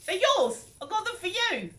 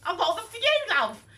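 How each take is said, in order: First: Higher-pitched, louder, half-hearted imitation of the friend; imitating the friend giving the gift, pitched high; friend's voice. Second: Very high, louder, cute imitation of the friend; sweet high friend handing over a present, cute voice. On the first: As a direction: try the friend's sweet voice, not quite landing it. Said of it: "I can't even do the voice". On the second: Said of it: "She had this cute voice".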